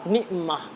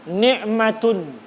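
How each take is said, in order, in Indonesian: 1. Kata itu diakhiri bunyi h lembut. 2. Kata itu diakhiri bunyi t dan -un. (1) "tapi kalau berhenti ni'mah. Itu kan dibaca ha" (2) "Itu kalau dibaca langsung"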